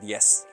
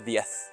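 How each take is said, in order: First: It is said in a Latin American accent. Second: It is said in a non-Latin American accent. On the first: "like we say in Latin America" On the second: "and now diez"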